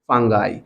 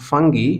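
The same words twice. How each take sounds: First: The word is said in an American accent. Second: The word is said in a British accent. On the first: "in American accent it is called fungi" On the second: "in British accent it is pronounced fungi"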